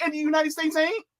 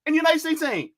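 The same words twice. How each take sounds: First: Indignant comeback leaning on "ain't"; retorting question. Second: Indignant comeback punching "United"; retorting question. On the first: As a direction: stress on ain't, rising at the end. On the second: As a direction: stress on United, falling finish. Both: Retold or imitated. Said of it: "And I'm like".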